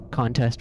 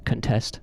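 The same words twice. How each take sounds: First: "Contest" stressed on CON, full first vowel; first-syllable stress. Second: "contest" stressed on TEST, reduced first vowel; second-syllable stress. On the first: Repeating the example, "Contest" stressed on CON. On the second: Repeating the example, "contest" stressed on TEST. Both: Shown as a demonstration. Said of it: "the words for it is lexical stress".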